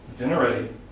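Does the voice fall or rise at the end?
fall. The voice falls at the end of the question. "I'll follow with the falling intonation"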